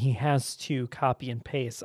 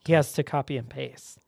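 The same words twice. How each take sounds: First: The word 'to' is said in full. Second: The word 'to' is reduced to 'ta'. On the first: The speaker calls it right. "instead of saying" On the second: The speaker calls it wrong. "I'll say"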